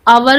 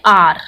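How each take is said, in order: First: It is said with two syllables, like 'ow-er'. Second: It is said with one syllable, like 'ar'. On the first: "आजकल इसकी pronunciation आवर भी बोल देते हैं" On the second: "mostly modern English में इसको आर बोला जाता है"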